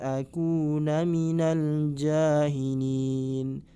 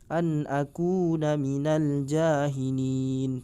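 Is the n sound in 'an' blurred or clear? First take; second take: blurred; clear. First: The n is blurred and barely heard. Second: The n is pronounced clearly and not held. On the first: The speaker calls it wrong. "Atau disamarkan nunnya, tidak jelas" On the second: The speaker calls it right. "nunnya dibaca jelas, kemudian tidak ditahan"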